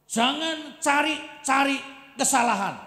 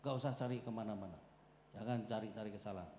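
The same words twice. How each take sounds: First: "jangan cari-cari kesalahan" loud, high and slow; "cari-cari" stressed, drawn out and loud; emphatic preaching. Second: "Jangan cari-cari kesalahan" softer and lower; calm low "cari-cari"; quiet restatement. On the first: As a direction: hammer each word of "cari-cari". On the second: Quiet repeat of the point. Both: Acted.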